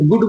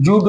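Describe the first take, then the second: First: The word begins with a hard g sound. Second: The word begins with a j sound. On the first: The speaker calls it right. "गुड बोलेंगे" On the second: The speaker calls it wrong. "जुड नहीं बोलेंगे"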